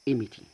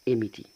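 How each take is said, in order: No difference in how they are said.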